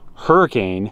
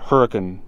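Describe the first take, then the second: First: The name is said the ordinary standard way. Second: The name is said the local way.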